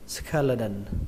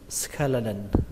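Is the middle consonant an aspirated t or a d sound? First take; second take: d sound; d sound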